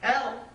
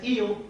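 First: The name is said with a short 'el' vowel. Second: The name is said with a long 'ee' vowel. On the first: The speaker calls it right. "the name El" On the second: The speaker calls it wrong. "which is mispronounced as Eel"

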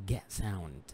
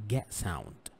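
Both takes have the same delivery.

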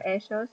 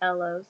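First: The double L sounds like an English J. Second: The double L sounds like an English L. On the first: The speaker calls it right. "You can hear people have a J sound with it" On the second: The speaker calls it wrong. "It's not ellos"

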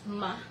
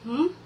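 First: The consonant is followed by a short uh vowel. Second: The consonant is said alone with no vowel. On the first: The speaker calls it wrong. "with schwa sound, they might sound as ma" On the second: The speaker calls it right. "We pronounce them as m"

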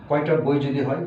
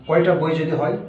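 No difference in how they are said.

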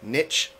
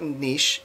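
First: The word rhymes with rich. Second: The word rhymes with quiche. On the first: The speaker calls it wrong. "It does not rhyme with rich like the word niche does" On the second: The speaker calls it right. "It rhymes with quiche"

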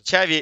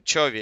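First: The first vowel sounds like 'ah'. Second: The first vowel sounds like 'oh'. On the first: This is how the English commentators say the name. "они его все Чави называют" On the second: This is how the Russian commentators say the name. "это мы его Чови называем"

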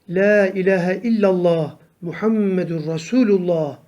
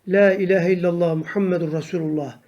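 First: The phrase is recited slowly and carefully. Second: The phrase is recited quickly. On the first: "doğru düzgün okumaya çalışalım" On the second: "hızlı okuyuşlarda"

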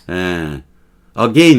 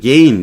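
First: The word begins with a weak vowel sound. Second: The word begins directly with the 'g' sound. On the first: "again 이래도 되지만" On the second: "gain 이래도 되고"

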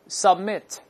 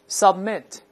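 The two takes are said the same way.

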